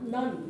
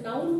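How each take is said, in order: First: The vowel is a short uh sound. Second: The vowel is a gliding ow sound. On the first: The speaker calls it right. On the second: The speaker calls it wrong.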